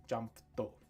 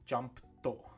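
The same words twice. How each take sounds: The two takes are said the same way.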